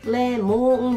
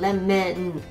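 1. 2番目の母音は o の音に近いです。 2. 2番目の母音は e の音に近いです。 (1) "レモンじゃなく" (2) "メの音の方が近いですね"

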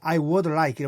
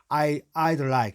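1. 이 단어들은 풀어서 음절 세 개로 말합니다. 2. 이 단어들은 줄여서 음절 두 개로 말합니다. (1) "I would like 보다는" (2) "대화로 말할 때는 주로 줄여 말하는 게 좋습니다"

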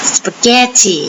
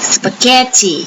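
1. คำนี้ออกเสียงแบบอังกฤษค่ะ 2. คำนี้ออกเสียงแบบอังกฤษค่ะ

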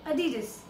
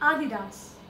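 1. यह अमेरिकन अंग्रेज़ी उच्चारण में है। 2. यह जर्मन उच्चारण में है। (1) "एक अमेरिकन इंग्लिश में" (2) "दूसरा तरीका है बोलने का"

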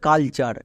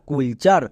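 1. প্রথম স্বরধ্বনিটি 'uh' ধ্বনির মতো। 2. প্রথম স্বরধ্বনিটি 'oo' ধ্বনির মতো। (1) "বাট এর উচ্চারণ হবে কালচার" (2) "একে অনেকে ভুল করে উচ্চারণ করে কুল চার"

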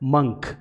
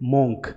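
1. यह स्वर 'cup' के 'u' जैसा सुनाई देता है। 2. यह स्वर 'go' के 'o' जैसा सुनाई देता है। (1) "इसे बोला जाएगा मंक" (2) "इसका भी प्रोनाउंसिएशन गलत है"

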